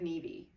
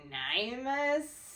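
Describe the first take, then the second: First: The name is said as a short Neev. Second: The name is read out letter by letter. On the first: The speaker calls it right. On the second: The speaker calls it wrong. "nobody ever pronounces it properly"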